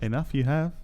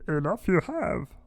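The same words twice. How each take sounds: First: It is said in his own normal voice. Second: It is said in a put-on Yoda voice.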